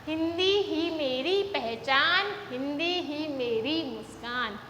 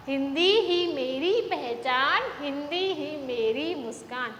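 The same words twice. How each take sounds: The two takes are said the same way.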